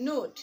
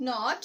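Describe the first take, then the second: First: নোট with a long o, as in "note"; long vowel. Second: নট with a short o, as in "not"; short vowel. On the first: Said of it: "vowel ই যোগে উচ্চারণ". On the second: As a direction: say নট like English "not". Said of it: "vowel ই ছাড়া উচ্চারণ". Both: Shown as a demonstration.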